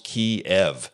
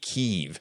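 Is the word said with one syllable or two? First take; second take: two; one. First: It has two syllables, stressing the second. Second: It is said as a single syllable. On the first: "two syllables, with sort of an emphasis on the last syllable" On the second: "just one single syllable as though it were spelled K-E-E-V"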